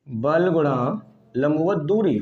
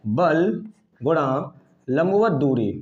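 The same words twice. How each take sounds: First: Slow repeated dictation. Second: Slow formula dictation. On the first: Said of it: "ये सूत्र है". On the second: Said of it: "बल युग्म आघूर्ण का सूत्र होता है". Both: Shown as a demonstration.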